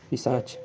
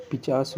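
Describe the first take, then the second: First: पिशाच with श then च; पिशाच said carefully as the right form; correct spelling read out. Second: पिचास said with a plain च sound; पिचास as the misspelt form; wrong spelling read out. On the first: Teacher gives the correct पिशाच to the class. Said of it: "होता है, पिशाच". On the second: Teacher reads the wrong form पिचास aloud. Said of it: "देखिए पिचास में". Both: Shown as a demonstration.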